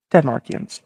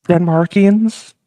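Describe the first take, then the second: First: "Denmarkians." said softer with a falling, settled tune; firm confirmation. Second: Slow, rising "Denmarkians?" as if doubting the word; puzzled question. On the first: America insisting on Denmarkians to Norway, quiet falling confirm. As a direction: confirm "Denmarkians." flatly, closing it down. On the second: Norway questioning the word Denmarkians, rising doubtful tune. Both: Acted.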